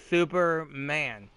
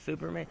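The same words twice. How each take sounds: First: Superman drawn out slowly, pointed; stretched Superman. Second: Said in the usual way. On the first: Shown as a demonstration. Teasing viewers about the hidden name, Superman drawn out slow. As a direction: lean on Superman, slow and knowing. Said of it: "I emphasize the word super". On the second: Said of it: "see, see, here we are".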